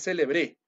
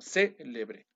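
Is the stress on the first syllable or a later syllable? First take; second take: later; first. First: The stress falls on a later syllable. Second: The stress falls on the first syllable. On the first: The speaker calls it wrong. "No es célebre" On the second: The speaker calls it right. "Célebre con tilde"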